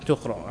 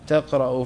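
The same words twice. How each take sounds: First: تقرأ as "tuqra'u", opening on u; corrected first vowel. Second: تقرأ as "taqra'u", opening on a; misread first vowel. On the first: Student accepting sheikh's correction, تقرأ as "tuqra'u". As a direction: say تقرأ with damma on the ta. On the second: Student reading to sheikh, تقرأ misread as "taqra'u". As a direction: read تقرأ with fatha on the ta. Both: Real, not acted.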